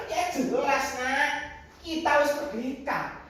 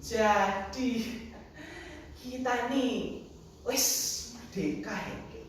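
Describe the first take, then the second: First: High, confident answer; emphatic assurance. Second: Softening, halting, unsure query; hesitant child's question. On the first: Grandfather assures grandchild of freedom, emphatically. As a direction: declare it as beyond doubt. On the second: Grandchild seeks grandfather's confirmation, hesitantly. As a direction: ask grandpa tentatively, trailing into a question. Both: Acted.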